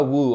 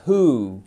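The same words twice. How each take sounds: First: Who said with a W, "wu"; who pronounced wrongly as "wu"; who with a sounded W. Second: Who said as "hoo", no W; who with a silent W, just "hoo"; who, slow and careful "hoo"; correct pronunciation. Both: Shown as a demonstration. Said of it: "on ne prononce surtout pas le W".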